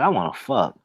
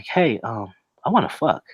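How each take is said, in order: First: It is said confidently and directly. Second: It is said hesitantly, with fillers.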